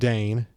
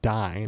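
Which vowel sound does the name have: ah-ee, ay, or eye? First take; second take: ay; eye. First: The vowel sounds like 'ay' in day. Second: The vowel sounds like 'eye' in dine. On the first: "it's not Dane" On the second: "and it's not Dine"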